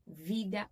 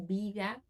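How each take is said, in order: First: The word begins with a V sound. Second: The word begins with a B sound. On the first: "o V ele tem som de B, em alguns lugares" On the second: "o V ele tem som de B, em alguns lugares"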